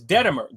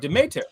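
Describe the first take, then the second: First: The name is said with 'de' in the middle. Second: The name is said with 'me' in the middle. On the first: The speaker calls it wrong. "what he said is Dedemer" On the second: The speaker calls it right. "the word is is, is Demeter"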